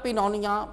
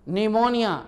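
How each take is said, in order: First: A p sound is heard at the start. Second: The word starts with n, no p sound. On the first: The speaker calls it wrong. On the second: The speaker calls it right.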